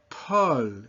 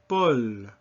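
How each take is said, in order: First: The first consonant has a strong burst of air. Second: The first consonant has no burst of air. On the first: The speaker calls it wrong. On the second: The speaker calls it right.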